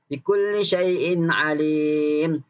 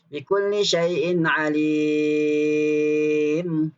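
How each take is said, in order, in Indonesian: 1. Vokal ditahan selama empat ketukan. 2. Vokal ditahan selama enam ketukan.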